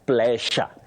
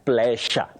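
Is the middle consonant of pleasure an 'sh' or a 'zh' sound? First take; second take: sh; sh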